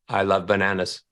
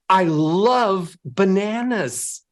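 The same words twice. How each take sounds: First: It is said flatly, with no emotion. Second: It is said warmly, with clear emotion.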